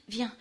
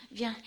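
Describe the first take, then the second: No difference in how they are said.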